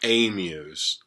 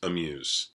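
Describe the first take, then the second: First: The first vowel is fuller and longer. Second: The first vowel is very short and reduced. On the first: The speaker calls it wrong. "It's not amuse" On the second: The speaker calls it right. "an even shorter A sound"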